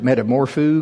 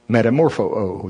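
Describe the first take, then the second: First: The word ends with a single o sound. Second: The word ends with a doubled o sound. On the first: The speaker calls it wrong. "which I always pronounced it metamorpho, because that's the way it's spelled" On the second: The speaker calls it right. "no, brother, in the Greek, it's metamorpho-o"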